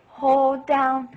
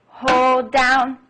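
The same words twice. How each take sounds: First: "Hold down" drawn out and a bit louder; held long. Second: "Hold down" stretched out long and louder; held long. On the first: Teacher saying the held note at the piano, drawn out. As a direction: stretch "Hold down" over the held key. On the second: Teacher showing children how a held note sounds, drawn out. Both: Shown as a demonstration. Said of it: "and that's how it sounds".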